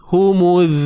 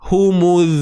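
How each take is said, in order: Both takes have the same delivery.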